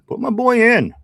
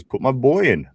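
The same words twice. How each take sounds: First: Louder, much higher, like hollering from the stands; mock rallying shout. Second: Said in the usual way. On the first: Host acting out Tortilla's chat demand, mock rallying shout. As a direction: shout it high and loud.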